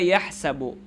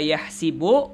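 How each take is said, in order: First: The middle vowel is an 'a' sound. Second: The middle vowel is an 'i' sound. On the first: This is the regular form following the rule. "boleh juga hasiba yahsabu. Hasiba yahsabu ini qiyasi" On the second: "boleh dibaca hasiba yahsibu ... kita baca yahsibu syadz, tidak sesuai qiyas"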